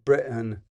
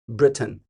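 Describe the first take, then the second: First: The middle T is left out entirely. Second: The middle T is fully and crisply pronounced. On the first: "they don't say the T at all" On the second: "And then there's Britain. Boom"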